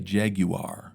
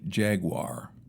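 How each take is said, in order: First: Jaguar is said with a British pronunciation. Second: Jaguar is said with a non-British pronunciation. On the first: "the British say Jaguar" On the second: "I say Jaguar"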